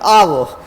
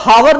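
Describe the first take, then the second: First: The word starts with a vowel sound. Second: The word starts with an h sound. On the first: The speaker calls it right. "क्या पढ़ते हैं?" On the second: The speaker calls it wrong. "इसको हावर नहीं पढ़ते हैं"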